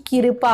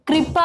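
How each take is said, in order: First: कृपा said as kirpa; extra vowel in कृपा. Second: कृपा said as kripa; joined kr sound. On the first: Teacher names wrong form, कृपा said as kirpa. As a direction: split the start of कृपा into kir. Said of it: "ना कि कृपा होता है". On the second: Teacher gives correct form, कृपा said as kripa. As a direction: join k and r at the start of कृपा. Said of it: "तो कृपा होता है". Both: Shown as a demonstration.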